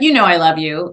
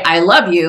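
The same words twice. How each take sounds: First: "You know, I love you" tossed off in passing; offhand tacked-on love you. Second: Said in the usual way. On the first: Retold or imitated. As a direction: throw the "I love you" away as an aside. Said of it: "as she's saying something negative". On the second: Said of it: "You wouldn't say".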